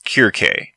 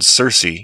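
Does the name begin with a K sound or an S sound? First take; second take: K sound; S sound. First: The name begins with a hard K sound. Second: The name begins with a soft S sound. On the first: "Her name in Greek sounds more like" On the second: "English use of the snake C"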